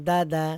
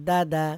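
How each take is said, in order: The two takes are said the same way.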